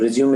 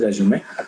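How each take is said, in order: First: It sounds like the verb meaning to continue. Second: It sounds like the French word résumé. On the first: The speaker calls it wrong. "resume is a uh, wrong pronunciation" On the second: The speaker calls it right. "It is resume"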